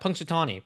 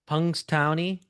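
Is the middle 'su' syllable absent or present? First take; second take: present; absent. First: The middle 'su' syllable is clearly said. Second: The middle 'su' syllable is left out. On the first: The speaker calls it right. "Oh, that's right" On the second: The speaker calls it wrong. "I'm still gonna read it wrong"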